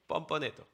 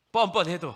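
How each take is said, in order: First: Said in the usual way. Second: Loud, high, forceful assertion; emphatic answer. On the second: Real, not acted. Preacher answers the objection about shamelessness, loud and emphatic. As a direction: throw it out loudly as the answer.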